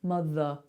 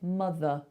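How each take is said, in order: First: The last vowel is a relaxed, neutral uh. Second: The last vowel is a relaxed, neutral uh.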